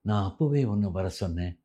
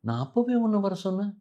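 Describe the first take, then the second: First: It is spoken in a flat, even tone. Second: It is spoken with lively, natural expression. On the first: The speaker calls it wrong. "எல்லாம் ஒரே மாதிரி பேசும்போது அப்படி வரவே வராது" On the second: The speaker calls it right. "இது ரெண்டுத்துக்கும் உள்ள வித்தியாசம் இருக்கு இல்லையா?"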